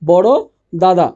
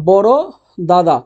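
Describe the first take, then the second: First: The syllable 'da' is said twice. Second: The syllable 'da' is said twice.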